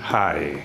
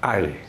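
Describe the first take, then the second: First: The word starts with an audible h sound. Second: The word starts with a vowel, no h sound. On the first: The speaker calls it wrong. "bukan hai" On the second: The speaker calls it right. "cara mengucapkannya adalah I"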